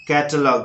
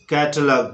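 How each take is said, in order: Both takes have the same delivery.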